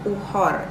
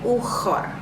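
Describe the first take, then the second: First: The middle consonant is a soft breathy h. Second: The middle consonant is a raspy throaty kh. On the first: The speaker calls it wrong. "Uhor itu salah" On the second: The speaker calls it right. "Tapi ukhor"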